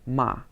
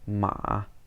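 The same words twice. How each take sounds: First: The pitch falls sharply. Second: The pitch falls and then rises again. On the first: "the fourth tone" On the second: "third tone"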